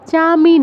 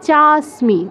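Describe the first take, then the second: First: The word is said without an s before m. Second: The word is said with an s before m. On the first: The speaker calls it wrong. "চামি নয়" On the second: The speaker calls it right.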